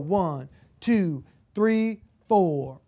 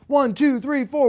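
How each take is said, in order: First: The counting is medium, about 120 beats. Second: The counting is fast, about 200 beats.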